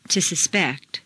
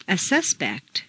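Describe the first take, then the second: First: SusPECT, stressed on the second syllable. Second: SUSpect, stressed on the first syllable. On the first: Teacher models verb "suspect", second-syllable stress. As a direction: hit PECT in "suspect". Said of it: "to the second syllable". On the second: Teacher models noun "suspect", first-syllable stress. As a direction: hit SUS in "suspect". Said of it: "first syllable for nouns". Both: Shown as a demonstration.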